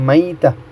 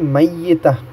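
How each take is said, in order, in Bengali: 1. মধ্যের 'y' ধ্বনিটি একক। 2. মধ্যের 'y' ধ্বনিটি দ্বিত্ব।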